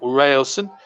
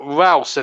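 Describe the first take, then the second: First: The first syllable sounds like 'rail'. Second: The first syllable sounds like 'ral'. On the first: The speaker calls it wrong. "not Railson" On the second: The speaker calls it right. "Ralson is his name, his, his correct pronunciation"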